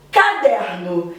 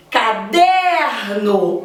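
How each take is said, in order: First: Said in the usual way. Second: Caderno drawn out slowly with a long, strong der; slow demo of Caderno, leaning on der; stress on DER. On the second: Shown as a demonstration. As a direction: stretch and punch the middle syllable der in Caderno. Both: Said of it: "O der é a sílaba mais forte".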